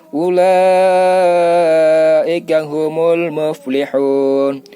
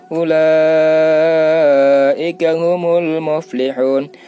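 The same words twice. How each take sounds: No difference in how they are said.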